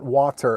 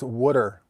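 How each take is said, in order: First: It is said in a general American accent. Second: It is said in a Philadelphia accent. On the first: The speaker calls it wrong. "not water" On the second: The speaker calls it right. "That's how we say it here"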